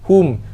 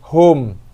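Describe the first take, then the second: First: The vowel sounds like a clear u. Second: The vowel sounds like an open o. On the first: The speaker calls it right. "Kita nak lahum" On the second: The speaker calls it wrong. "ramai baca islahul lahum"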